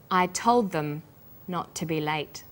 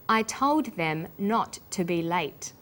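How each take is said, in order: First: TOLD THEM run together, THEM reduced to "thum"; weak THEM linked onto TOLD; linked words. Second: Said in the usual way. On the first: Shown as a demonstration. Teacher giving learners the practice answer, TOLD THEM linked. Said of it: "learned about linking words".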